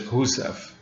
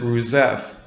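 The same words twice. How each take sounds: First: "Rousseff" opening on an H sound, not R; Portuguese pronunciation. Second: Said in the usual way. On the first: Shown as a demonstration. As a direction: try "Rousseff" the Brazilian way, like "Hoo-seff". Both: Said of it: "I think in Portuguese it's Rousseff".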